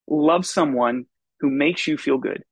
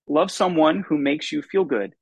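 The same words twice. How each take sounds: First: It is said in a calm, advice-giving manner. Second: It is said in a forceful, preaching manner. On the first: It sounds like self-help advice. "does that sound like it could come from a self-help aisle of a bookstore?" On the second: It sounds like a sermon. "can I say it like this? Does that sound like it could come from some pulpits"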